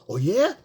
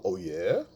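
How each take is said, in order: First: Higher, over-eager mock reply; matching her energy. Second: Low, contained questioning reply; staying masculine. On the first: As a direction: parody a man matching her excitement, pitched up. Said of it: "I'm gonna match her energy". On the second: Shown as a demonstration. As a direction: answer from down in your chest, unexcited. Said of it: "stay masculine".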